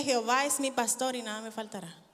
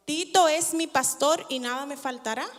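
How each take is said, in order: First: Jehová es mi pastor said softly, falling on Jehová; the correct psalm, quieter, settling down on Jehová; proper verse. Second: Tito es mi pastor with a teasing rise on Tito; mock misquote of the psalm, Tito stressed with a rising end. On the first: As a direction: give Jehová the weight and let it fall. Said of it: "¿O dice". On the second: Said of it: "¿Qué dice la Biblia?". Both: Shown as a demonstration.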